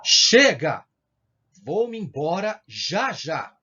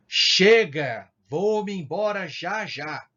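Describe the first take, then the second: First: Loud burst on Chega, then slow; nervous outburst. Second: Loud burst, then slowed; nervous outburst. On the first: Teacher acting a fed-up exclamation. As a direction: snap it like you've had enough. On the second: Teacher rerunning the fed-up exclamation. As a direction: blurt it out fed up. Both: Shown as a demonstration. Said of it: "Eu tô indicando que eu tô nervoso".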